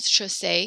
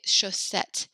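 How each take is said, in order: First: The final T sound is left silent. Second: The final T sound is clearly pronounced. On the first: The speaker calls it wrong. "like you said, kind of chaussee here" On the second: The speaker calls it right. "So we'd say chaussette"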